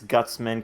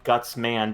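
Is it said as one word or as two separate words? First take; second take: one word; two words. First: It is run together as one word. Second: It is said as two separate words. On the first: "They just read it as one word" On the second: "guts man being two separate words"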